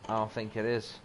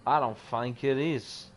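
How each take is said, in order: First: Said in the usual way. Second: I leaned on, falling tune; stress on I. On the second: Real, not acted. Repeating his doubt about the camp, stressing I. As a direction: hit the word I in doubt.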